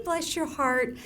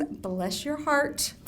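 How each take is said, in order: First: Southern phrase. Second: Slow Southern drawl. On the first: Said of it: "a Southern lady's yo mama". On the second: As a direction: Bless your heart, drawn out slowly in a Southern lady way. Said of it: "mother of all Southern expressions". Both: Shown as a demonstration.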